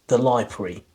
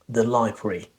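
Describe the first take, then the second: No difference in how they are said.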